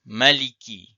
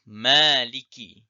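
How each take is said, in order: First: The first vowel is short. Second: The first vowel is long. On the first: "Kiraat yang pertama tanpa alif" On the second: "Kiraat yang kedua dibaca dengan alif"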